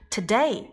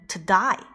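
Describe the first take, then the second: First: The vowel is said in a standard way. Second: The vowel is said in an Australian way.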